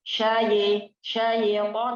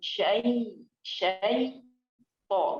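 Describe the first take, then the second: First: The final 'to' sounds thin and light. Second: The final 'to' sounds thick and heavy. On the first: The speaker calls it wrong. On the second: The speaker calls it right.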